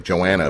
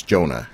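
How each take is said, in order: First: "Joanna" said the mistaken way, joe-ANN-uh; wrong reading. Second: "Jonah" said the right way, JOE-nuh; correct name. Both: Shown as a demonstration. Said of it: "it looks like Joanna, but it's Jonah".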